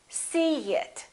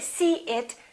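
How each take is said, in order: First: A light y sound links the two words. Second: The two words are said with no y sound. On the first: The speaker calls it right. "Listen to this" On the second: The speaker calls it wrong. "we don't say see it"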